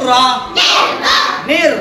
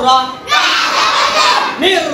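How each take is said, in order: No difference in how they are said.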